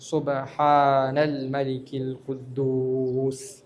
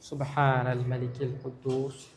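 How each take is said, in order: First: It is said louder with long drawn-out sounds. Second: It is said at normal loudness and length. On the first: "ശബ്ദം കൂട്ടിയിട്ടും നീട്ടിയിട്ടും ... ഇങ്ങനെ" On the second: "first രണ്ട് പ്രാവശ്യം സാധാരണ"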